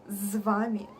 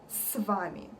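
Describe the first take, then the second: First: The first consonant is a voiced z. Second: The first consonant is a voiceless s. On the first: The speaker calls it wrong. "when people say з вами" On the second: The speaker calls it right. "We say с вами"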